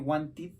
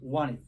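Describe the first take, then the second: First: The middle T is pronounced strongly. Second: The middle T is pronounced softly. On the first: The speaker calls it wrong. "we don't say wanted" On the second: The speaker calls it right. "the letter T sounds less"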